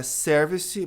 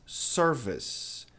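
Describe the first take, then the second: First: Service with the final E sounded; wrong pronunciation. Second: Service slow, no final E; correct pronunciation. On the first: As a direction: say service with an E at the end. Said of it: "não é service". (service com E no final) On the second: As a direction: drag out service with a silent E. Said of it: "não é service mas". (service bem devagar, sem o E) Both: Shown as a demonstration.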